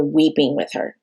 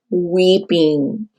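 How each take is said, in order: First: Said in the usual way. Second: Weeping drawn out slowly and heavily; slow stress on weeping. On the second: Real, not acted. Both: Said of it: "like, weeping".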